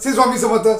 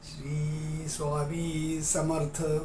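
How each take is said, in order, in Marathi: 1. हा वाक्यांश पटपट आणि घाईघाईने म्हटला जातो. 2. हा वाक्यांश हळूहळू आणि हळुवारपणे म्हटला जातो. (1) "फास्ट करत ... असं नाही म्हणतात" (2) "असं हळूवार"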